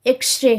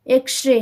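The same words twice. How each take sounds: The two takes are said the same way.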